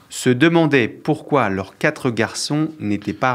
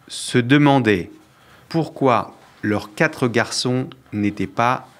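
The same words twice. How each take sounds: First: The sentence is read at a fast pace. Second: The sentence is read at a slower pace. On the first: The speaker calls it wrong. "Tu vas trop vite" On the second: The speaker calls it right. "je refais plus lentement"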